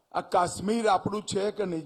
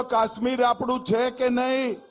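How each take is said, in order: First: Said in the usual way. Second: Louder repeat. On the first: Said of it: "જરા જોરથી બોલો તો". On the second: Shown as a demonstration. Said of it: "બરોબર જોરથી બોલો".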